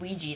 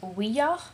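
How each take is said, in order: First: The word ends with a 'jee' sound. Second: The word ends with a 'ya' sound. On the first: This is the common way people say it. The speaker calls it wrong. "Most people pronounce it Ouija, though, which is um, Mario's brother, Luigi" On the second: It joins the French and German words for yes. The speaker calls it right. "it should actually be pronounced Ouija, because the word comes from the French word for yes and the German word for yes"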